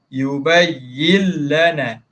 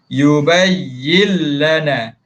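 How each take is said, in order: No difference in how they are said.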